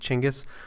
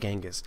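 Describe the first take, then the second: First: The name has its more modern, native-like pronunciation. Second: The name has its familiar English pronunciation. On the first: "the more proper pronunciation, the more modern pronunciation" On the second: "that's what most people are familiar with"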